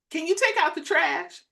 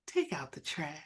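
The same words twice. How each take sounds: First: Pitched up, full-voiced request; her usual tone demonstrated. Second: Very soft, low and hushed; mock soft request. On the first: Wife showing how her request really comes out, full-voiced. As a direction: ask it higher, without softening a bit. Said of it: "I may say". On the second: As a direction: demonstrate an unnaturally quiet way of asking. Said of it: "that's not how it's gonna come out". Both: Shown as a demonstration.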